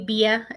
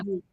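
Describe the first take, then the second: First: The name is said with two syllables. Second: The name is said with one syllable. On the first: This is the audiobook's pronunciation. "That's how they pronounce it in the audiobook" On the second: This is the expected pronunciation. "instead of"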